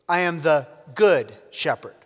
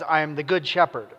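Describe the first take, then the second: First: The main stress falls on good. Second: The main stress does not fall on good. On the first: The speaker calls it right. "hear the emphasis on the word good" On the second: The speaker calls it wrong. "I said that with the wrong emphasis just now"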